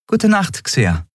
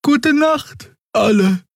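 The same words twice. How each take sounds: First: High voice falling to normal pitch; Endriel. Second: Very high-pitched creature goodnight; sleepy Draxül. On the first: Endriel returns Xea's goodnight, high voice dropping at the end. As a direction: start high and let the name drop. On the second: Xea says goodnight to everyone, sleepy Draxül voice. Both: A narrator's reading.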